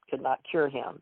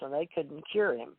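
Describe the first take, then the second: First: Could and not are said as two words. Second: Could and not merge into one contracted word.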